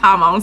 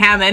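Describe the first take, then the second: First: It sounds like 'Hamon', with no final d. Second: It sounds like 'Hammond', ending in a d. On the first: The speaker calls it right. "it's Hamon" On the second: The speaker calls it wrong. "I was saying it wrong the whole time"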